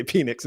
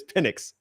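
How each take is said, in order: First: "Penix" said as PEE-nix; wrong pronunciation. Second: "Penix" said as PIN-ix; correct pronunciation. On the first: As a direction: give "Penix" a long ee first. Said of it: "trying to make me say Penix". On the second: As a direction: give "Penix" a short first vowel. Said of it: "No, it's Penix". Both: Shown as a demonstration.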